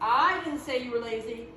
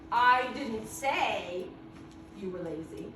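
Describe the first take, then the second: First: The word I is louder and longer. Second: The words didn't say are louder and longer. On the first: Someone else said it. "if I'm stressing that I, I'm saying that louder, longer" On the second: The speaker only thought it. "I'm going to stress didn't say"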